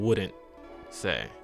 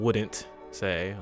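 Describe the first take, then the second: First: The D and T sounds are dropped. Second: The D and T sounds are fully pronounced. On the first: The speaker calls it right. "I'm saying wouldn't say" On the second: The speaker calls it wrong. "I'm not saying wouldn't say"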